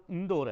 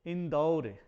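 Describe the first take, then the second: First: इंदौर set out as the mistaken form; name the wrong इंदौर plainly; teacher states the incorrect इंदौर; wrong form of a word. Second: इंदौर with the full औ vowel as the correct form; teacher's careful demo of the right इंदौर with औ; correct pronunciation. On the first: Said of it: "शब्द का उच्चारण उ". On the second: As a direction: give the correct इंदौर with a clear, long औ. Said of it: "वास्तव में उच्चारण होना चाहिए". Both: Shown as a demonstration.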